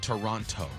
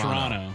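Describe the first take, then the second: First: Every syllable is fully pronounced, the non-Canadian way. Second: The name is clipped and reduced, the Canadian way. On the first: The speaker calls it wrong. "you don't say Toronto" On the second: The speaker calls it right. "You say"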